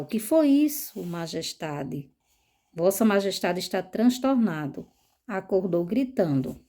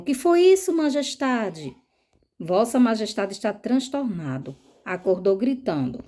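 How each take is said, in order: First: The lines are said in a calm, tranquil way. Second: The lines are said in a nervous, agitated way. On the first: The character enters the scene calmly. "se ele entra calmamente, ele vai perguntar" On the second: The character enters the scene in a state of nerves. "se tá nervoso, a pergunta é"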